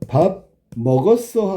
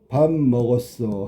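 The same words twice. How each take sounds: First: The pitch rises at the end. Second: The pitch stays level at the end. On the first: It asks whether the meal was eaten. "얘는 밥 먹었냐고 물어보는 거잖아" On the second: It states that the meal was eaten. "얘는 밥을 먹었다고 확인하는 거고"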